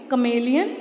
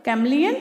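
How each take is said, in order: First: कमेलियन as "kuh-MAY-lee-un"; long "may" inside कमेलियन. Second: कैमलियन as "KAM-lee-un", rising; short three-syllable कैमलियन. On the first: Teacher comparing spellings, कमेलियन as kuh-may-lee-un. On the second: Teacher comparing spellings, कैमलियन as kam-lee-un. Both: Shown as a demonstration. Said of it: "इसको अलग pronounce करेंगे".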